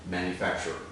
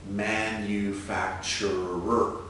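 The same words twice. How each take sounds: First: The last two syllables merge into one. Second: It is said with five distinct syllables. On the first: It sounds like the verb meaning to make. The speaker calls it wrong. "when we speak more quickly, there's a tendency to combine the last two syllables here. It sounds like four" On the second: It is a noun meaning a maker. The speaker calls it right. "make sure it's five clear, distinct syllables"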